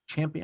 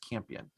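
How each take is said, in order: First: The name starts with a 'ch' sound. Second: The name starts with a 'k' sound. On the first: The speaker calls it wrong. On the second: The speaker calls it right.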